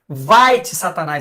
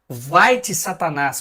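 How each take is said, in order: First: It is said sharply and with more force. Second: It is said in a plain, calm voice.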